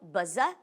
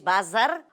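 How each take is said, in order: First: It is said in a British accent. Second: It is said in an Irish accent.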